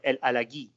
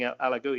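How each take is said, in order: First: The name is said in the French way. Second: The name is said in an anglicized way. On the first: This is how the player himself says it. The speaker calls it right. "no, El Alagui ... because of your French" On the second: This is how commentators commonly said it. The speaker calls it wrong. "I hear everybody saying El Alagoui"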